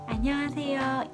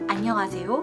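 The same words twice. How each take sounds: First: The voice is soft, gentle and calm. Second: The voice is low-pitched and fairly deep. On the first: The speaker calls it right. "여성스러우면서도 이렇게 좀 조근조근한 차분한 느낌" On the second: The speaker calls it wrong. "제 목소리 자체가 중저음 느낌의 여자 목소리인 거예요"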